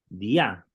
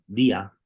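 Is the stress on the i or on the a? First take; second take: the a; the i. First: The stress falls on the final a sound. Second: The stress falls on the i sound. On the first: The speaker calls it right. "cuando se le pone acento sobre la, la alfa, tenemos que leerlo como dia" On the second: The speaker calls it wrong. "Para ser día, el acento tendría que estar sobre la iota"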